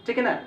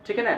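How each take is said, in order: Both takes have the same delivery.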